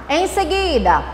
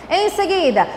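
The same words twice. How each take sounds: The two takes are said the same way.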